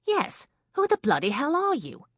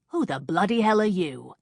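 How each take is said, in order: First: High, loud indignant woman's demand; a woman snapping at an intruder. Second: Loud, indignant man's demand; a startled man barking at an intruder. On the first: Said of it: "Kate demanded". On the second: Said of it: "Jake asked the intruder". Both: A narrator's reading.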